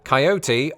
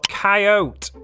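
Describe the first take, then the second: First: The word is said with three syllables. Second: The word is said with two syllables. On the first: "I never failed to pronounce it with three syllables" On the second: "more than ten percent went with the second option"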